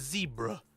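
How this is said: The first syllable sounds like 'zee'. "Or if you're American, it's a zebra"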